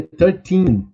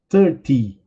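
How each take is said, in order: First: Put-on thirteen slowed, teen drawn out and stressed. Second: Thirty with weight on thir, falling; stress on thir. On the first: Teacher contrasting thirteen with thirty, teen stressed. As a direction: stretch and hit the teen of thirteen. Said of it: "Olha a diferença". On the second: Teacher contrasting thirty with thirteen, first syllable stressed. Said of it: "eu falei thirty". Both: Shown as a demonstration.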